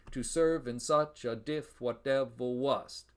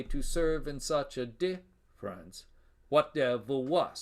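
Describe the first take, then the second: First: Slow even beat, "diff" cut to one syllable; regular iambic line. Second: Slow beat, weak "-ference" set apart after DIFF; feminine caesura. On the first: Lecturer showing the line without extra syllable, regular beat. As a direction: scan it slowly, running "diff" straight into "whatever". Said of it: "we'd have a regular line". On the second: Lecturer reading the real line, feminine caesura. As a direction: scan "difference" as DIFF-rence, pause, resume iambs. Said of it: "it's a feminine caesura". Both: Shown as a demonstration.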